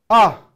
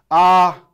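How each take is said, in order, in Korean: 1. 성조는 높은 데서 낮은 데로 떨어져요. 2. 성조는 처음부터 끝까지 같아요. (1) "위에서 아래로 떨어지는 폴링톤입니다" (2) "쭉 처음부터 끝이 같습니다"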